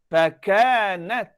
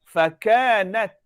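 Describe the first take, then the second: No difference in how they are said.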